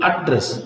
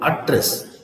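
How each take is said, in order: First: ADdress, weight on AD in "address"; stress on first syllable. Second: AdDRESS, weight on DRESS in "Address"; stress on second syllable. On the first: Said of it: "stress on the first". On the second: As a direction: lean on the last syllable of "Address". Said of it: "stress on the second syllable". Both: Shown as a demonstration.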